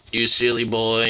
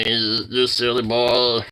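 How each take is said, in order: First: Said in the usual way. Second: Slow stretched tender coo; drawn-out coo. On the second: Real, not acted. Owner slowly cooing at the pet. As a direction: linger on each word lovingly.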